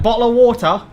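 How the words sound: It is said in an exaggerated British accent.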